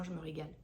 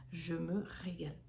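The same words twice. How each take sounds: First: Said in the usual way. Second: "Je me régale" spaced out word by word. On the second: Real, not acted. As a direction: draw out "Je me régale", leaning on "régale". Repeats it slowly for emphasis.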